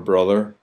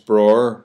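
First: The middle 'th' sound is clearly pronounced. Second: The middle 'th' sound is dropped entirely. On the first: "we don't say other, or brother" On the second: "It's broer"

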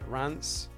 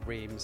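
First: The name is said with a French pronunciation. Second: The name is said with an English pronunciation. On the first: "as the French pronounce it" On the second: "as everybody in the UK seems to pronounce it"

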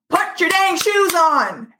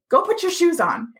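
First: It is yelled loudly and angrily. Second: It is said calmly, without yelling.

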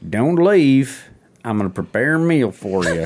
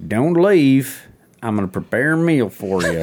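First: It is said in a put-on character voice. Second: It is said in a put-on character voice.

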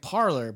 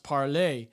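First: It is said like the English word parlor. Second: It is said with a French ending, like parlay. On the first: The speaker calls it wrong. "Parler is not pronounced like parlor" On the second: The speaker calls it right. "It's French, so it's pronounced parler"

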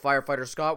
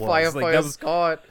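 First: It is said with no regional accent. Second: It is said with a strong Boston accent.

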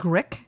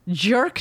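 First: It is pronounced like 'grick'. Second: It is pronounced like 'jerk'. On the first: The speaker calls it wrong. "I just said Grick, which it's Jerk" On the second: The speaker calls it right. "Thank you for the pronunciation cues"

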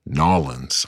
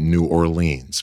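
First: It is the local Louisiana pronunciation. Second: It is the speaker's own regional pronunciation.

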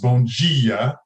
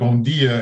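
First: The d in dia sounds like dj. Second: The d in dia is a plain d. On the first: This is the Brazilian Portuguese way. "the D switched for a G is Brazilian Portuguese" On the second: This is the European Portuguese way. "instead of"

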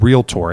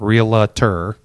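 First: The word is said with two syllables. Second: The word is said with three syllables. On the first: The speaker calls it right. "that is how you pronounce the word realtor" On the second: The speaker calls it wrong. "It's not realtor. Sorry for those of you that mispronounce"

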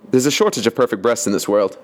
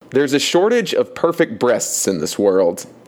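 First: The line is spoken very quickly. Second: The line is spoken more slowly.

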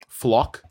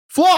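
First: The word is said flatly, without excitement. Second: The word is said loudly, with exclamatory excitement. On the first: The speaker calls it wrong. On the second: The speaker calls it right. "there you go"

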